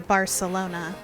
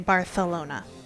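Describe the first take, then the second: First: The c is pronounced like an s. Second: The c is pronounced like th.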